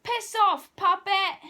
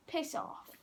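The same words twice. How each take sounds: First: Loud, high shout. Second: Unvoiced whisper. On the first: Retold or imitated. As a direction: yell it back at him. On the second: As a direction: breathe it out like a secret. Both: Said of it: "and I was like".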